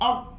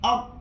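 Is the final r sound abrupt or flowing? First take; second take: abrupt; abrupt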